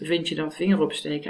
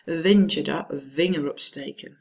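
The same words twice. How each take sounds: First: It is said the Dutch way, v like f. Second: It is said English-style, with a strongly voiced v.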